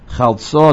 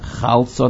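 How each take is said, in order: First: The stress is on the last syllable. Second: The stress is on the first syllable. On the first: The speaker calls it right. "The emphasis should be on the last syllable" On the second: The speaker calls it wrong. "not chalso nafshi"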